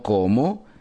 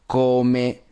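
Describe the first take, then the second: First: The word ends with an O vowel. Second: The word ends with an E vowel. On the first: The speaker calls it wrong. "no como" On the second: The speaker calls it right. "Termina con la E, no con la O"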